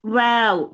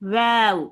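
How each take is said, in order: No difference in how they are said.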